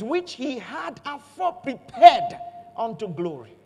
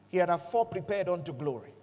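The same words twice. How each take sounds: First: "Which he had afore prepared" louder and slow; slow down and punch "Which he had afore prepared"; emphatic reading. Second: Said in the usual way. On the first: Real, not acted. Preacher stressing an important verse. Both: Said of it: "This is important".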